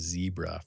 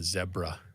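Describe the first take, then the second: First: It is said the American way, starting 'zee'. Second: It is said the British way, starting 'zeh'.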